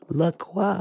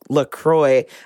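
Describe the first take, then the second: First: The name is said with a French pronunciation. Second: The name is said with an English pronunciation. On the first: "It's French. It's LaCroix" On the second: "people were like, it's LaCroix"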